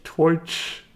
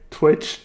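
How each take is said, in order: First: Questioning Irish "Twitch" as twoitch, higher; Irish accent. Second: Said in the usual way. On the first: Shown as a demonstration. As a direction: try an Irish oy in "Twitch", unsure. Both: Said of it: "How do you say twi".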